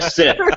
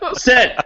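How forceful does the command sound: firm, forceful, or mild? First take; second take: mild; firm. First: The command is said mildly and calmly. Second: The command is said more firmly. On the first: The listener is expected to obey. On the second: The listener has not obeyed yet.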